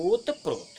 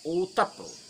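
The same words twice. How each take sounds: First: ओतप्रोत said as ओत्प्रोत, with no vowel between त and प; ओतप्रोत squeezed into two syllables, ओत्-प्रो; wrong pronunciation. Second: ओतप्रोत said with a short vowel, ओ-त-प्रोत; ओतप्रोत in full syllables, the त opened and the final त clear; correct pronunciation. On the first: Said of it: "कुछ लोग कहते हैं". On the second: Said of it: "ये सही उच्चारण है". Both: Shown as a demonstration.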